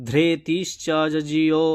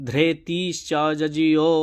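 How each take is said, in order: Both takes have the same delivery.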